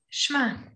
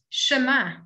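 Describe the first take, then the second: First: The sh runs straight into the m. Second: A full vowel is heard after the sh. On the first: This is the form used in practice. "in practice, it becomes Shema" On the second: This is the spelled-out form. "It says Shema Yisrael"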